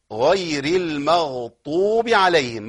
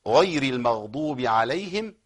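First: Slow chant, «المغضوب» with heavy t for dad; dad turned into ta. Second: Slow chant, «المغضوب» with emphatic d; proper dad recitation. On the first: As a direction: recite «المغضوب» wrongly with ط in place of ض. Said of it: "يبدل بطاء". («المغضوب» بطاء بدل الضاد) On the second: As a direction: recite «المغضوب» slowly with a true ض. Correct recitation after wrong demo. («المغضوب» بضاد صحيحة مرتلة) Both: Shown as a demonstration.

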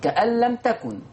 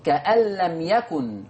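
First: كأن لم تكن with a clear t in تكن; كأن لم تكن بالتاء; feminine ta, Hafs. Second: Slow كأن لم يكن with a clear y in يكن; كأن لم يكن بالياء; masculine ya, Warsh. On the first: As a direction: stress the t of تكن. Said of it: "حفص هيقول بتاء التأنيث". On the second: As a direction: draw out يكن from its y. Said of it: "فقرأ بياء التذكير". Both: Shown as a demonstration.

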